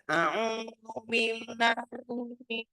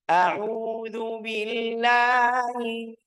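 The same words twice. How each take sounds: First: The voice comes out through the nose. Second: The voice comes out freely through the mouth. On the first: The speaker calls it wrong. "Ini semuanya dari hidung salah" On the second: The speaker calls it right. "Ini lihat suaranya eh, keluar"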